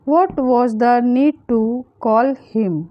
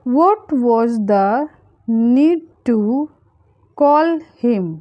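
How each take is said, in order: First: Said in the usual way. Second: Slow, spaced-out words for learners; slow breakdown. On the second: Shown as a demonstration. Teacher modelling a translation for learners, slowly and spaced out. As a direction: draw out "What was the need to", pause, then "call him".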